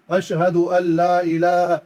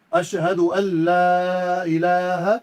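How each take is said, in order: First: لا said short with no stretch, the common mistake; short la, wrong. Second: لا stretched two to three alifs, slow and chanted; long madd on la. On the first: Teacher imitates how people wrongly recite it, la cut short. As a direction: clip the لا without the madd. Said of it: "غلطی کرتے ہیں". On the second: Teacher shows the correct recitation, la stretched long. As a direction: draw the لا out long. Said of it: "لام کو دو سے تین الف کے برابر ہم کھینچیں گے". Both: Shown as a demonstration.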